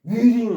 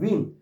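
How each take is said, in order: First: The word starts with a W sound. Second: The word starts with an R sound. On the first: The speaker calls it wrong. "위링 하면 안 돼" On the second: The speaker calls it right. "위링 하지 말고 그냥 ring"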